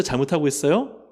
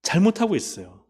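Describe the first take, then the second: First: 잘못하고 있어요 asked with a rising end on 있어요; asking question. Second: 잘못하고 있어요 answered with weight on 잘못하고 and a falling end; falling answer with stress on 잘못하고; firm answer. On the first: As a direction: pose it as a question to the congregation, lifting 있어요 at the end. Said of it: "지금 우시아가 잘하고 있어요?". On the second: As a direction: settle the answer, leaning on 잘못하고 and dropping at the end. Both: Shown as a demonstration.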